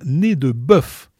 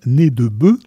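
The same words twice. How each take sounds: First: Bœuf ends with a clearly pronounced f sound. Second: Bœuf ends without the f sound, as in plural. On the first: It names a mountain peak. "prononcé bien nez de bœuf" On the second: It names a brutal or dim-witted person. "à prononcer comme au pluriel"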